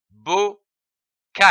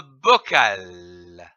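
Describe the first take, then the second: First: "bocal" in two separate syllables, pause between; split into syllables. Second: Said in the usual way. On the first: Shown as a demonstration. Teacher joining syllables for learners, "bocal" broken in two. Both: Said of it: "L'association de ces syllabes".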